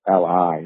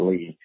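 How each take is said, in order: First: The name is spelled out as two letters. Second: The name is said as one syllable. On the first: The speaker calls it right. "it's L.I" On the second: The speaker calls it wrong. "he would pronounce it Lee"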